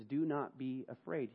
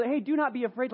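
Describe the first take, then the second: First: Softer, meant every word; David's heartfelt comfort, quiet; sincere reassurance. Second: Higher, breezy, empty comfort; casual brush-off said lightly; offhand reassurance. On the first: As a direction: say it and mean it. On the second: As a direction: toss it off without meaning it. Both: Acted. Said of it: "David actually meant what he said".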